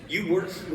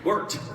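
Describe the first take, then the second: First: Mock-quizzical "worked" said as one syllable; the fan's "worked", echoed back with a question; imitating her word. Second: "Worked" spoken carefully as two syllables, wor-ked. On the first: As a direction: repeat "worked" as one clipped syllable, puzzled. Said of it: "work or worked?". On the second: Shown as a demonstration. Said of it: "Two syllables".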